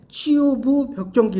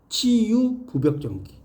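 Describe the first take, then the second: First: The break comes after 치유부. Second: The break comes after 치유.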